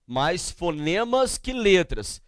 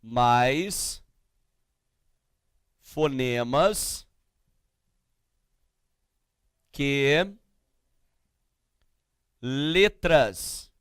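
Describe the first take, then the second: First: Said in the usual way. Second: Word by word with long pauses, lower pitch; slow dictation. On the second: Real, not acted. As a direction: dictate slowly as if writing each word. Dictates slowly while writing. (ditado pausado, palavra por palavra)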